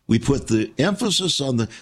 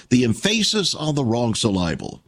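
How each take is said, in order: First: Said in the usual way. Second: Emphasis said "em-FAY-sis", syllable said "sil-LAH-ble"; deliberately mis-stressed emphasis and syllable; wrong-syllable stress. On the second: Shown as a demonstration. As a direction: shift the stress onto the second syllable of emphasis and syllable.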